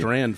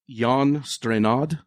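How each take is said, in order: First: The surname is said with one syllable. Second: The surname is said with two syllables. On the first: The speaker calls it wrong. "I was calling him" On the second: The speaker calls it right. "Let me see how to pronounce this guy's name right"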